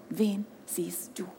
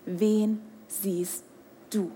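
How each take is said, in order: First: Slow whisper, much softer; whispered question. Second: Low, soft and drawn out; soft slow question. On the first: Preacher whispers the repeated question to the crowd. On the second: Preacher asks the crowd softly before whispering. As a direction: ask it quietly, leaving a pause. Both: Acted.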